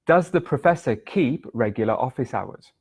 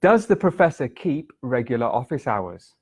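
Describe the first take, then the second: First: Breathy whispered repeat. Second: Said in the usual way. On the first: Shown as a demonstration. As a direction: whisper the sentence through. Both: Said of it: "The sentence was".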